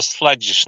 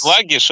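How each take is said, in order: First: "sluggish" with the g said like j in "judge"; soft g pronunciation. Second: "sluggish" with a hard g as in "slug"; hard g pronunciation. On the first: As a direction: say "sluggish" as "sludgish". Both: Shown as a demonstration. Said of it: "sluggish or sluggish".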